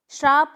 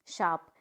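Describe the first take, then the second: First: श्राप loud with an r, shraap; wrong pronunciation. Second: शाप with no r, shaap, pitched down; correct pronunciation. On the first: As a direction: demonstrate the mistake श्राप, loudly. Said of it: "नहीं होता है". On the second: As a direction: model शाप as a low falling shaap. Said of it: "तो क्या होता है?". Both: Shown as a demonstration.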